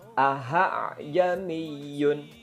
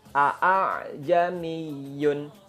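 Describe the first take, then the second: First: The second glottal stop becomes an h sound. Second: The second glottal stop is said in full. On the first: "mengganti hamzah dengan ha, ha besar ... itu salah" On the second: "membaca hamzah dengan hamzah murni ... itu keliru"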